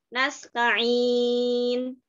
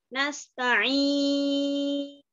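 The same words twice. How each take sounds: First: The long vowel is held for four counts. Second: The long vowel is held for six counts. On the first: "yang empat harokat" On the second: "yang enam harokat"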